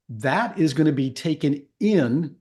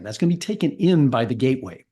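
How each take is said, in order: First: Slow, with a rising lift on in; taken in, with in stretched and rising; stress on in. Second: Said in the usual way. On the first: Shown as a demonstration. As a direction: lean on the word in, drawn out. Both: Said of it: "I'm gonna emphasize the word in".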